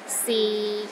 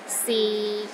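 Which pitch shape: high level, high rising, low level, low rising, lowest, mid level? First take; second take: low level; low level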